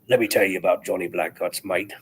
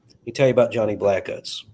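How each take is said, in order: First: It is said in a put-on pirate voice. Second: It is said in his normal voice.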